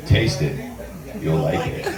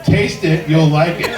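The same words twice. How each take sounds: First: Much lower, seductive "Taste it", laughing at the end; sultry low invitation; sexy tone. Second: Said in the usual way. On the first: Shown as a demonstration. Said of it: "how would you say it?". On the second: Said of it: "Or how would you say it?".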